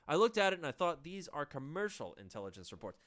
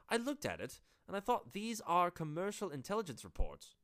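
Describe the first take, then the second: First: It is said in an American accent. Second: It is said in a British accent.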